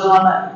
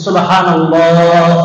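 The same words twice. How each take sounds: First: It is rushed and hard to make out. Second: It is said slowly and calmly. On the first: The speaker calls it wrong. "কিছুই বুঝা যায় না" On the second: The speaker calls it right. "একটু ঠান্ডা"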